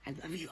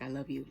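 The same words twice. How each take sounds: First: It is said with intense passion. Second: It is said simply and warmly.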